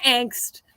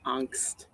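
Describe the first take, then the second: First: "angst" with the short vowel of "axe"; nineties Missouri pronunciation. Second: Said in the usual way. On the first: Shown as a demonstration. Poet recalling nineties Missouri speech, "angst" with a short a. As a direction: say "angst" higher, as "ankst" rhyming with "thanked". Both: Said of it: "That's probably how we said it".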